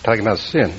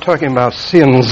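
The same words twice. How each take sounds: First: Said in the usual way. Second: "sins" hit hard with a long buzzing final s; stress on plural SINS. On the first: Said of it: "It's a singular". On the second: Shown as a demonstration. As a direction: draw out the plural ending of "sins". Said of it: "it's not plural".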